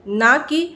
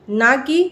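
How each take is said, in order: No difference in how they are said.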